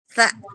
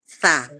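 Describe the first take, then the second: First: The syllable ends with a glottal catch. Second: The syllable ends on an open vowel. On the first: This is the letter's name. "nama hurufnya kita tambah hamzah ya" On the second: This is the letter read with a vowel mark. "setelah diharokati"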